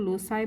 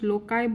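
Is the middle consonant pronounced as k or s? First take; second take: s; k. First: The middle consonant is an s sound. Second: The middle consonant is a k sound. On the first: "कहीं पे लोसाई भी बोला जाता है" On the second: "कहीं पे लोकाई भी बोला जाता है"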